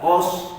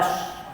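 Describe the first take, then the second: First: The vowel sounds like o. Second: The vowel sounds like a. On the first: The speaker calls it wrong. "kita baca dengan o pula" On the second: The speaker calls it right. "Hamzah baris atas a"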